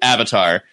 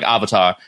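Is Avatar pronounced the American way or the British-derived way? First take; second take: American; British-derived. First: It uses the usual American vowel. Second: It uses the British-derived broad ah vowel.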